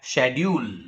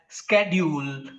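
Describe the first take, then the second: First: It is said with a British pronunciation. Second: It is said with an American pronunciation. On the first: "in Britain, people speak the same word in a different manner as schedule" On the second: "In America, people speak the word as schedule"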